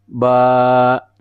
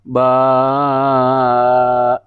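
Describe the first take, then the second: First: The vowel is held for a moderate length. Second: The vowel is stretched out much too long. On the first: The speaker calls it right. "Sekira segini" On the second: The speaker calls it wrong. "Kalau seperti ini, ba itu keliru, terlalu kepanjangan"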